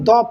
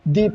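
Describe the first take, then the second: First: The vowel is a short 'uh' sound. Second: The vowel is a long 'ee' sound. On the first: The speaker calls it right. "इसे हम द पढ़ेंगे" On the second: The speaker calls it wrong. "ना कि दी पढ़ेंगे"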